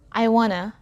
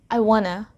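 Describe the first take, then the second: First: 'Want to' is reduced and blended together. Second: 'Want to' is reduced and blended together.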